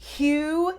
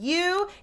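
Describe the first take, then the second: First: The word starts with an audible breathy huh. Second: The word starts with a clean, non-breathy onset. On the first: "hue ... giving a huh sound at the beginning" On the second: "instead of you"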